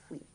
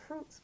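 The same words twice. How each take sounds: First: "fruit" said the French way, no final s; silent s. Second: "fruits" with the final s clearly sounded; spelled-out fruits. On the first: Teacher giving the real spoken form after the spelling. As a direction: drop the s on "fruit", just fwi. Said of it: "but pronounced fruit". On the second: Teacher sounding out the spelling before the real pronunciation. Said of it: "Spelled fruits, but pronounced fruit". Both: Shown as a demonstration.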